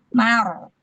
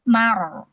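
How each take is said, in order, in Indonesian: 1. Huruf m dan vokalnya terdengar tipis dan ringan. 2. Huruf m dan vokalnya terdengar tipis dan ringan.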